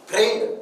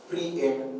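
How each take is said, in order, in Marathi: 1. हा शब्द एका अक्षरात म्हटला जातो. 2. हा शब्द दोन अक्षरांत म्हटला जातो. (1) "फ्रेंड हा आपला बोली उच्चार आहे" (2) "आपल्याला स्पेलिंग लक्षात ठेवायचंय म्हणून आपण त्याचा उच्चार फ्री एंड"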